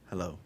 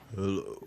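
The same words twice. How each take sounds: First: It is said in his normal voice. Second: It is said in a put-on sexy voice.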